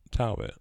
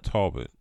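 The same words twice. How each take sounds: First: "Talbot" as TAL-bit, a as in "pal"; second pronunciation option. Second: "Talbot" as TAWL-bit, open first vowel; first pronunciation option. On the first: Comparing both ways for the listener, "Talbot" as TAL-bit. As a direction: say "Talbot" with a short "a". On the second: Comparing both ways for the listener, "Talbot" as TAWL-bit. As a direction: say "Talbot" with "aw" as in "tall". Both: Shown as a demonstration. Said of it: "What do you say?".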